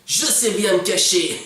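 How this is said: It is said with overly excited enthusiasm. The speaker calls it wrong. "elle est beaucoup, beaucoup trop enthousiaste"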